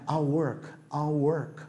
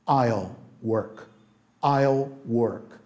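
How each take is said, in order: First: I'll work run together, the L barely touched; quick natural I'll work. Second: Each word placed slowly and clearly; slow and deliberate, like a teacher's first model; careful slow I'll work. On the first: Teacher showing the fluent everyday contraction, quick and casual. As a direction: toss it off fast like in real talk. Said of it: "você vai falando assim, mais prático". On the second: Teacher modelling the contraction slowly for students, careful and slow. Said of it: "conforme você vai pegando a prática". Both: Shown as a demonstration.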